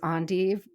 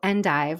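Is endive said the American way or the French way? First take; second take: French; American. First: It is said the French-style way. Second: It is said the usual American way. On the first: "the way I was taught to say it" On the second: "which is how most Americans say it"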